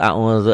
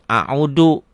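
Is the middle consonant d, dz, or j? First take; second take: dz; d. First: The middle consonant is a dz sound. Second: The middle consonant is a plain d. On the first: This is the proper reading. The speaker calls it right. "padahal a'udzu zal" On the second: This is how Sundanese speakers sometimes say it. The speaker calls it wrong. "Orang Sunda kadang a'udu"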